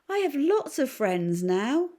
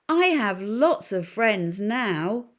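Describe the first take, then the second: First: It is said at a normal, quieter volume. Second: It is said very loudly.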